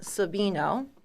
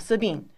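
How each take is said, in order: First: The name ends with its final vowel sounded. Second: The name ends with its final vowel cut off. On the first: "written out Sabino" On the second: "they're just kind of cutting off that end of it"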